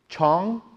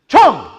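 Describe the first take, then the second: First: It is said at normal volume. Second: It is said loudly and forcefully.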